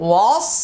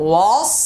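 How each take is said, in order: The two takes are said the same way.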